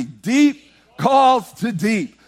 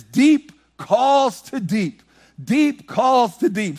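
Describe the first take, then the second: First: Slow, high line for the church to repeat; slow call and response. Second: Slow, high, sung psalm line; slow sung quote. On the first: Shown as a demonstration. Preacher leading the church in response. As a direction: lead the congregation, slow. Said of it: "Say that with me". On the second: Acted. Sung, preacher quoting David in song. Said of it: "He says".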